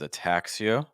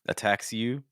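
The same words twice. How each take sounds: First: The phrase sounds non-nasal, placed low. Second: The phrase sounds nasal, placed high. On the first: The speaker calls it right. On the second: The speaker calls it wrong.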